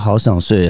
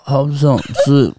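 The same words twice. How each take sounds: First: The phrase is said quickly and plainly. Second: The phrase is slow and drawn out after a long lead-in. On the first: "比如可能就是" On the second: "但他会这样"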